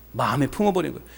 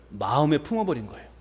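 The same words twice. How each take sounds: The two takes are said the same way.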